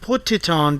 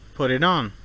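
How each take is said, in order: First: The T sounds are crisp, hard Ts. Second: The T sounds are soft, quick taps.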